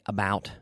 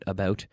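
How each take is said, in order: First: It is said with an American accent. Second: It is said with a Canadian accent. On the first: "Americans would say" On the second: "my Canadian pronunciation"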